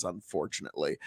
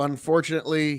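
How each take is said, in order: First: Resigned, low. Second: Said in the usual way. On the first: Real, not acted. Repeated word, then low resigned echo.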